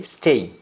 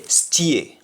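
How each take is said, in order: First: "stay" with a plain ay vowel; English pronunciation. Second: "steer" drawn out as "stee-eh"; Jamaican pronunciation. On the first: Teacher contrasting with Jamaican, "stay" with English ay. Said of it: "In English, we say stay". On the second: Teacher contrasting with English stay, "steer" as stee-eh. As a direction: turn the vowel of "steer" into ee-eh, no r. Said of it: "but in Jamaican, we say steer". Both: Shown as a demonstration.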